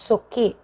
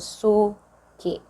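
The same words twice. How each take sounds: First: The stress is on the second syllable. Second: The stress is on the first syllable. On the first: This is how Bisaya speakers say it. "For us" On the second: This is how Tagalog speakers say it. "the accent is in the the the first syllable"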